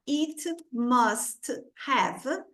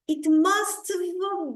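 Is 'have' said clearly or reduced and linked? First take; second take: clearly; reduced. First: The word have is said fully and clearly. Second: The word have is reduced and joined to must. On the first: The speaker calls it wrong. "ao invés de falar it must have" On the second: The speaker calls it right. "a gente vai juntar e vai fazer isso aqui"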